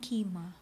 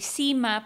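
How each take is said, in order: First: The name begins with a K sound. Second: The name begins with an S sound. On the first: This is reportedly the official way of saying the name. "pero ang pronunciation daw nun" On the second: This is the familiar way of saying the name. "Lumaki ako Sima yun eh"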